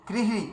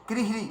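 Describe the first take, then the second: The two takes are said the same way.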